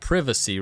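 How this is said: The word is said with a British pronunciation. "Which is like the British way of saying it"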